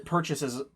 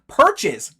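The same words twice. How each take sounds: First: "perches" fumbled with an extra syllable, like "purchases"; tongue slip. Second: "perches" said loud and clean in two syllables; corrected word. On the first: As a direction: stumble over "perches" so it comes out "purchases". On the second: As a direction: blurt the corrected "perches", exasperated with yourself. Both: Real, not acted. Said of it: "God, I can't speak".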